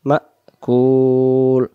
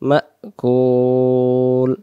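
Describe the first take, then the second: Both takes have the same delivery.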